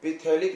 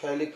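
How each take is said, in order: First: पिथेलिक said with the P sounded, as it is written; spelled-out form. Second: थैलिक said with a silent P, starting on the TH sound. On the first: Teacher shows students the written spelling, P sounded. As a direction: say पिथेलिक letter by letter with a clear P. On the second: Teacher tells students how to actually say it, P silent. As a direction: drop the P and say थैलिक. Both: Shown as a demonstration. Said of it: "पी silent है इसमें".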